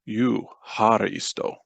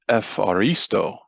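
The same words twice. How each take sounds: First: It begins with an eu vowel sound. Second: It begins with an ef sound. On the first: This is the ancient form of the word. "in the Greek Paul spoke ... but eucharisto" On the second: This is the modern form of the word. "the word for thank you was not eucharisto"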